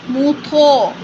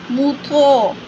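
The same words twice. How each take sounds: The two takes are said the same way.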